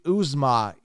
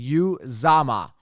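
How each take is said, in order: First: The name starts with an 'oo' sound. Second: The name starts with a 'you' sound. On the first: This follows the name's actual spelling. The speaker calls it right. "but it's actually Uzomah, U Z O M A H" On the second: This is how others commonly say the name. The speaker calls it wrong. "Y O U Z A M A, Uzomah. That's what they're pronouncing it"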